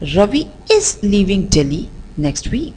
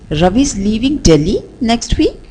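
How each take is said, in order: First: The stress falls on the word is. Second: The stress falls on the word Delhi. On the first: "let's shift the stress on the word is" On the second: "let's shift the stress on the word Delhi"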